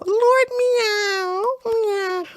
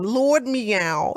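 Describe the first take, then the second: First: High, meowing cat voice; high mewing Lord Meow; mock cat meow. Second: Said in the usual way. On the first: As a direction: meow the name like a kitten. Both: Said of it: "What a nice name".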